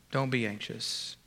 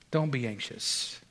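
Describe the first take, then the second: Both takes have the same delivery.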